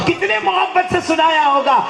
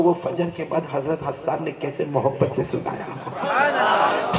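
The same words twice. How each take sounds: First: Much higher, louder, slow impassioned repeat; rising to full preaching force. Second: Said in the usual way. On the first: Shown as a demonstration. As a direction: lift the question into a fervent cry. (بلند آواز میں پُرجوش خطابت) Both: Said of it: "preacher repeats the question louder".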